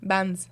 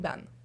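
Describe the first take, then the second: First: The name ends with an audible S sound. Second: The name ends without an S sound. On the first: The speaker calls it wrong. "au secondaire, on m'appelait de même" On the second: The speaker calls it right. "le S est là, mais on le prononce pas"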